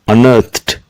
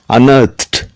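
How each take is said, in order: Both takes have the same delivery.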